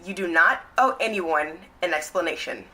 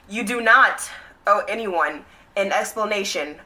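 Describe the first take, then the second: First: It is said at a normal speaking volume. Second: It is said louder and with more force.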